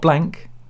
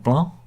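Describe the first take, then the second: First: The final c sound is pronounced. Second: The final c sound is left silent. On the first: The speaker calls it wrong. "not Blanc" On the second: The speaker calls it right. "as the C, the last. You note that off"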